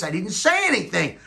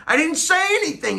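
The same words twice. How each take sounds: First: Said in the usual way. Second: Squeaky falsetto protest; high squeaky voice. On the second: Shown as a demonstration. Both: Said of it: "repeated in high voice".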